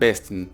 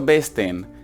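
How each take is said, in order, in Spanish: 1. La segunda vocal se traga y apenas se oye. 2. La segunda vocal se pronuncia clara y completa. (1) "la segunda E como que te la comes" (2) "No he dicho besten"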